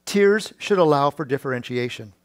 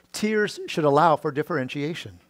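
Both takes have the same delivery.

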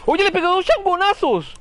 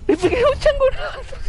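First: Excited. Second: Excited repeat. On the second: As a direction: say it again, pushing it up high. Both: Real, not acted.

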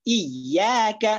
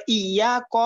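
First: ইয়া কা very slowly with a strong, doubled ya; slow, firm ইয়া কা. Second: Wrong example ইয়া ক; wrong light ya. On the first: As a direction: press hard on the ya in ইয়া কা. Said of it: "ইয়াটা শক্ত হবে". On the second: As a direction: show the mistaken ইয়া ক. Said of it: "বলা যাবে না". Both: Shown as a demonstration.

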